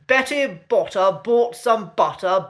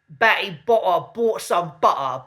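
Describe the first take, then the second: First: The T sounds are clearly pronounced in every word. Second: The T sounds are dropped in the middle of words. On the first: It sounds posh. The speaker calls it right. "we need to be pronouncing those T's" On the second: It sounds common rather than posh. The speaker calls it wrong. "they tend to miss out their T's"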